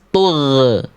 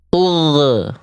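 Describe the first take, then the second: Both takes have the same delivery.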